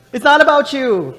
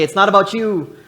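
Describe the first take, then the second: First: Much higher and louder, hitting not; louder call to neighbor. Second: Loud call to the congregation; call to neighbor. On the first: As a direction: shout it again with more force. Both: Shown as a demonstration. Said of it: "Turn to your neighbor and say".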